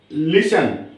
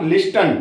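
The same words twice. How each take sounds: First: "लिसन" with only an S in the middle; "लिसन", T dropped; silent T. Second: "लिस्टन" with ST in the middle; wrong-way "लिस्टन", T audible; T sounded. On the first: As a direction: say "लिसन" without a T. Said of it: "इसको पढ़ेंगे लिसन". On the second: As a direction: say "लिस्टन" pronouncing the T. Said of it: "not लिस्टन". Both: Shown as a demonstration.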